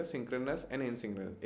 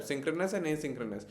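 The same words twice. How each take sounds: First: Very slow, softer repeat of the terms; a teacher's soft, slow reminder of terms. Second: Slow, deliberate terms for students; teacher dictating key terms slowly; slow for memorising. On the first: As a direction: say it again, quietly and slowly, for memory. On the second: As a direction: spell the two words out slowly so they stick. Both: Shown as a demonstration. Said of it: "तो please ये words याद रखिएगा".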